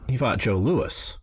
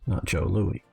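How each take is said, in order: First: The name ends with a clear s sound. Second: The name ends without an s sound. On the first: The speaker calls it right. "it's pronounced Joe, Joe Louis" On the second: The speaker calls it wrong. "like Louis the Fourteenth"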